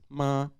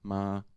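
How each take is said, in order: First: The pitch stays level and high. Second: The pitch stays level at middle height. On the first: "so it is a high tone" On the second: "It's like normal tone height"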